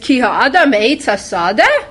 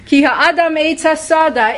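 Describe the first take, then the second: First: It is said with a questioning tune. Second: It is said with a plain statement tune. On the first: It asks whether a human is a tree of the field. "Is man a tree of the field? ... That's the second way" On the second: It states that a human is a tree of the field. "is a tree of the field, a human being"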